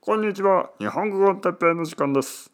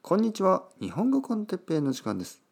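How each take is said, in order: First: It is said in a put-on double's voice. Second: It is said in his natural voice.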